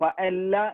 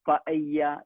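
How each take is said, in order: First: The double L is said as an L sound. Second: The double L is said as a Y sound. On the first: This is the English way of reading it. "നമ്മൾ ശരിക്കും ഇംഗ്ലീഷിൽ അത് വായിക്കുക" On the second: This is the Spanish way of reading it. "സ്പാനിഷിൽ വായിക്കേണ്ടത്"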